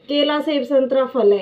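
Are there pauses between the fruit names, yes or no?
no. It is read straight through without pauses.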